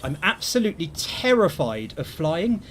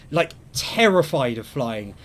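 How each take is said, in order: First: Said in the usual way. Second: Terrified drawn out slowly and leaned on; slow down and hit terrified; slow, heavy emphasis on terrified; stress on terrified. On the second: Shown as a demonstration.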